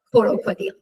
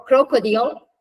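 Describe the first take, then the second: First: "crocodile" with a vowel splitting c and r; Persian-style loanword pronunciation. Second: Said in the usual way. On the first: Shown as a demonstration. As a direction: say "crocodile" as ko-ro-ko-dil. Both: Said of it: "we would pronounce it".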